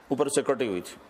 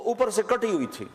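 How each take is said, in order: First: Said in the usual way. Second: اوپر raised high and stretched; stress on اوپر. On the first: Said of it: "تو وہ اوپر سے کٹی ہوئی تھی". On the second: Shown as a demonstration. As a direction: lift the word اوپر up high. (اوپر پر زور، اونچی آواز میں)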